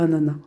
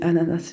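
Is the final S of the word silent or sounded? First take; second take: silent; sounded. First: The final S is left silent. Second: The final S is pronounced aloud. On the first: "je dis pas ananas" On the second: "moi je dis ananas ... Il faut que je prononce le S"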